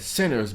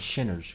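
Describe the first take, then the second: First: The word starts with a plain s sound. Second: The word starts with a sh sound. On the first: This is the usual pronunciation of the title. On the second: This imitates how the director would say it.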